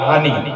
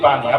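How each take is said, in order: First: The word begins with an h sound. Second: The word begins with a p sound. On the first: This is the Noakhali dialect form. "নোয়াখালীতে পানিকে পানি বলে না, এই পানিকে বলে ওরা হানি" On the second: This is the speaker's own regional form. "আমরা আমাদের আঞ্চলিক ভাষায় বলি পানি"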